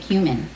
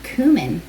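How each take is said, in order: First: The word is given a casual, everyday pronunciation. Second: The word is given a fancy, refined pronunciation. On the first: "I usually say cumin" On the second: "I'm pronouncing it fancy for you"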